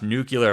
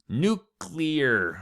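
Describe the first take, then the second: First: The word is not said like 'new clear'. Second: The word is said like 'new clear'. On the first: The speaker calls it wrong. "Do not say nuclear. Oh gosh" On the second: The speaker calls it right. "it's new and it's clear. Nuclear"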